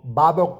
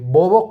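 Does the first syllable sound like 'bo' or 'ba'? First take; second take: ba; bo. First: The first syllable is said with an a sound. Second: The first syllable is said with an o sound. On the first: This is reportedly the correct pronunciation. "por ahí he escuchado que es la correcta pronunciación" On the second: This is how the title is spelled. "se escribe Bobok"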